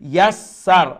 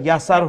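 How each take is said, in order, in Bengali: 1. s ধ্বনিটি ধরে রেখে দ্বিগুণ করা হয়। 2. s ধ্বনিটি শুধু একবার উচ্চারণ করা হয়। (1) "তখন আপনার উভয় সিন উচ্চারণ হবে" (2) "ইয়াসার হলো, তখন আপনার একটা সিন উচ্চারণ থেকে বাদ পড়ে গেল।"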